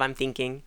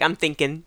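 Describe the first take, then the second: First: The final G of thinking is pronounced. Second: The final G of thinking is dropped. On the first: This is the complete standard form. "instead of" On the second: This is how the local dialect says it. "we have our Hoosier twang where we cut the G's off the end of our gerunds"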